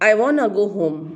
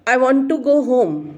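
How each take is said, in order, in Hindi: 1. 'Want to' को जोड़कर 'wanna' बोला जाता है। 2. 'Want to' पूरा बोला जाता है, दो अलग शब्दों के रूप में। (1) "नेटिव स्पीकर्स कैसे बोलते हैं?" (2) "जैसे हम कहें"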